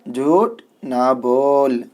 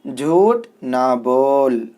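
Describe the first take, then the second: The two takes are said the same way.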